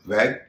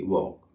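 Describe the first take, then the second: First: The vowel sounds like the 'a' in cat. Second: The vowel sounds like the 'aw' in law. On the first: The speaker calls it right. "इसे कहते हैं वैग" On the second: The speaker calls it wrong. "न कि वॉक"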